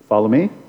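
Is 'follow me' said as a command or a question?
question. It is said as a question, rising. The listeners are asked whether they want to follow. The speaker calls it wrong. "Question mark"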